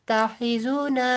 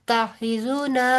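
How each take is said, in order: The two takes are said the same way.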